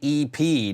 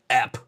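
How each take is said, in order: First: It is said as two separate letters. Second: It is said as a single word. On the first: The speaker calls it right. "they would know to say E P" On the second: The speaker calls it wrong. "not ep"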